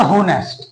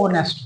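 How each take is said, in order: First: होनेस्ट said with a clear spoken h at the start, ho-nest; wrong pronunciation. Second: ऑनेस्ट with a silent h, starting on an open o, on-est; correct pronunciation. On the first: Teacher shows students the wrong way: होनेस्ट with a sounded h. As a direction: sound the h in होनेस्ट to show the common mistake. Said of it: "तो होनेस्ट नहीं होता". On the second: Teacher gives students the right way: ऑनेस्ट, silent h. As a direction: drop the h and open straight on the vowel in ऑनेस्ट. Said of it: "ये क्या होता है?". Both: Shown as a demonstration.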